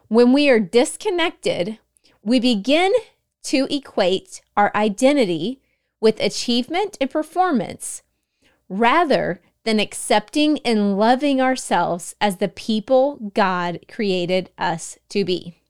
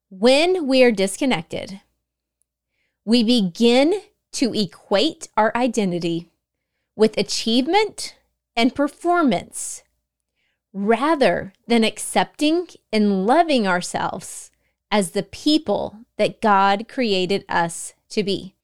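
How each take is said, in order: First: It is said at a normal speed. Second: It is said slowly and deliberately.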